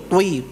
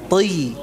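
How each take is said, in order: First: The vowel is rounded with pushed-out lips. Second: The vowel is spread with unrounded lips. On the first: The speaker calls it wrong. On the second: The speaker calls it right.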